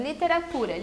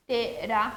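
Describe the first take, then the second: First: Said in the usual way. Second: "literatura" split into five separate syllables. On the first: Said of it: "Por exemplo". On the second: Shown as a demonstration. Teacher counting syllables for pupils, "literatura" broken into five separate syllables. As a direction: count out "literatura" with a gap after each syllable. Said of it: "cinco sílabas".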